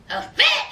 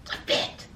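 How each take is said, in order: First: High emphatic repeat. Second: Whispered repeat. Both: Shown as a demonstration. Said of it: "Yazan had a fit".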